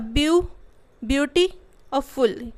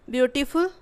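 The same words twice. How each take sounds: First: beauty और फुल in separate chunks with pauses; broken into syllables. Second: Said in the usual way. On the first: Shown as a demonstration. Teacher breaking the word to count syllables, beauty और फुल split apart. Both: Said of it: "word को तोड़ के देख लेना".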